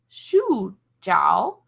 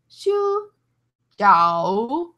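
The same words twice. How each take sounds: First: It is said with the tones of sleep. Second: It is said with the tones of dumplings. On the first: It means sleep. "sleep is shu jiao" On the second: It means dumplings. "dumplings are shu jiao"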